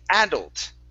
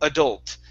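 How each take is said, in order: First: The stress is on the first syllable. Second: The stress is on the last syllable. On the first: "they pronounce a uh, like a uh, an a sound, a short a, stressing that sound" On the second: "I'm using a schwa at the beginning. The stress is at the end of the word"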